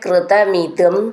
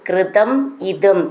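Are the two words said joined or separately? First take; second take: joined; separately. First: The two words run together as one word. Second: The two words are said as separate words.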